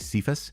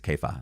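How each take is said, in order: First: The name is said ending with an s sound. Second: The name is said without a final s sound. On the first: The speaker calls it wrong. "some people say Cephas" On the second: The speaker calls it right. "the pronunciation is Kepha"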